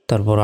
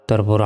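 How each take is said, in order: The two takes are said the same way.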